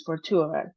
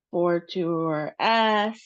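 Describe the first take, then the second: First: Said in the usual way. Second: Fortuitous wrongly drawn out, slow and split up; drawn-out mispronunciation. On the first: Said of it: "So nothing is drawn out". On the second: Shown as a demonstration. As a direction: drag out each part of fortuitous as a wrong example. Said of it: "So it's not".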